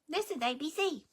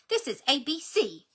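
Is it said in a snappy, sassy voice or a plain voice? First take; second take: plain; snappy, sassy. First: It is said in a plain, everyday voice. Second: It is said in a snappy, sassy voice.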